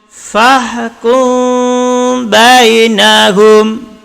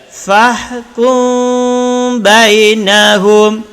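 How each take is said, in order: Both takes have the same delivery.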